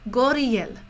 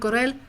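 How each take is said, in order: First: The name is said with three syllables. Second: The name is said with two syllables. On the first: The speaker calls it right. "Goriel. That's what she, she said" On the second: The speaker calls it wrong. "Not Gorel"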